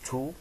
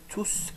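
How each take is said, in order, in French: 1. Le S final est muet. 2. Le S final se prononce. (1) "le S final ne se prononce pas" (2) "le S final se prononce"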